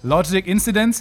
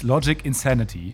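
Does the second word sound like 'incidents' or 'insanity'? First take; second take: incidents; insanity. First: The second word sounds like 'incidents'. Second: The second word sounds like 'insanity'. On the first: The speaker calls it wrong. "Alle drei falsch ausgesprochen" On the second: The speaker calls it right. "und die hieß Logic Insanity"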